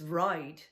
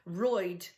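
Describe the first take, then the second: First: The word is said without a Dublin accent. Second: The word is said in a Dublin accent.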